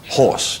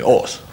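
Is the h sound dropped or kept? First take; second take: kept; dropped. First: The word begins with a clear h sound. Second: The h is dropped, English style.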